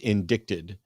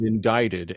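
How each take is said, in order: First: The word has a misread, spelled-out pronunciation. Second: The word has its usual pronunciation. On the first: The speaker calls it wrong. "she mispronounced when she was reading something... read it as indicted" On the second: The speaker calls it right. "She did not know the word indicted"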